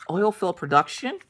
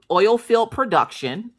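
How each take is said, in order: First: "Oil field production?" rising at the end; intrigued echo question. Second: Said in the usual way. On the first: Retold or imitated. Boy echoes it as question.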